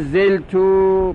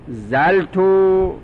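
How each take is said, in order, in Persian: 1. حرف صدادار اول یک صدای i کوتاه است. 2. حرف صدادار اول یک صدای a باز است. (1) "به کسر زا" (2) "به فتح زین زا"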